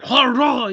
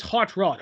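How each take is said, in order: First: Higher "Hot Rod" in cartoon French; mock French accent. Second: Said in the usual way. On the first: Showing how Hot Rod says "Hot Rod", mock French accent. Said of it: "He's got that accent". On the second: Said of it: "what's he saying? His name is".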